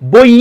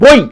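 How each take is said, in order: First: The final vowel is stretched out long. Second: The final vowel stops abruptly and short. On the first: The speaker calls it wrong. "আপনি কি এভাবে উচ্চারণ করতে পারবেন? এভাবে তো উচ্চারণ হয় না।" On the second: The speaker calls it right. "বই ধাক্কা মেরে থেমে যাচ্ছে না?"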